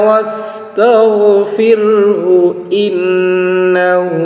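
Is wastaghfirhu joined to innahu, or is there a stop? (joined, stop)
joined. Wastaghfirhu runs straight into innahu without stopping. "আর যদি আমরা একসঙ্গে বলি"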